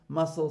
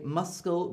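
First: No k sound follows the s. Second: A k sound follows the s. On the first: The speaker calls it right. "When these are together, it's usually silent" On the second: The speaker calls it wrong. "We don't say muscle"

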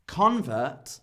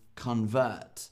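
First: The stress is on the first syllable. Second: The stress is on the second syllable. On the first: "if I put the stress on the start of the word" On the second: "or the second half of the word"

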